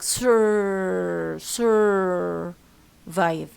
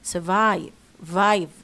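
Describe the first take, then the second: First: The stress is on the first syllable. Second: The stress is on the second syllable. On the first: The speaker calls it wrong. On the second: The speaker calls it right. "the vive ده اللي هو الستريس syllable"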